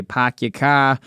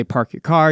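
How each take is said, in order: First: "Pack your car" with the R dropped, "Park" said as "Pack" and "car" as "cah"; eastern pronunciation demo. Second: "Park your car" with a clear R in "Park" and "car"; western pronunciation demo. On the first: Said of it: "the East, people say". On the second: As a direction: say "Park your car" with the R sounded in both words. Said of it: "people say". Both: Shown as a demonstration.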